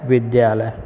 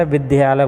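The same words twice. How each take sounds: First: विद्यालय with a v start; correct pronunciation. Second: विद्यालय as "biddyalay" with b; common mispronunciation. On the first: Teacher gives the pure form, विद्यालय with v. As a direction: say विद्यालय as "vidyalay", v and dy together. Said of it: "जबकि शुद्ध क्या है". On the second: Teacher shows what people always say, विद्यालय as "biddyalay". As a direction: loose b-start, short i in विद्यालय. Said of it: "इसका उच्चारण गलत करते हैं". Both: Shown as a demonstration.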